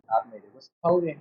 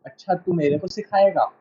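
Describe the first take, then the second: First: Polite request. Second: अच्छा, तू मेरे को सिखाएगा with a scornful falling सिखाएगा; mock rude challenge. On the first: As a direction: ask it gently and respectfully. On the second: Teacher shows rude tone to a student, mocking challenge. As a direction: sneer it as if the listener is dismissed. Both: Shown as a demonstration. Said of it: "बात का sense बदल जाता है".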